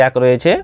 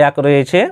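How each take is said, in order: Both takes have the same delivery.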